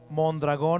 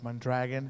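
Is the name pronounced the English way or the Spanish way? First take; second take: Spanish; English. First: The name is said with a Spanish pronunciation. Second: The name is said with an English pronunciation.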